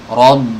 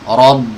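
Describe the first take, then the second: Both takes have the same delivery.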